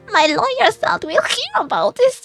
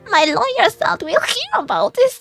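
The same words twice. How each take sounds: First: The voice trembles and shakes. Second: The same.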